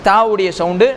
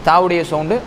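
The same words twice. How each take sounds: The two takes are said the same way.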